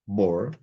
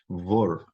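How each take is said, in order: First: The word begins with a B sound. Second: The word begins with a V sound. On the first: The letter keeps its dagesh. "que traz o som de B" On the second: A vowel comes before it, so the dagesh drops. "o bet agora tem som de vet"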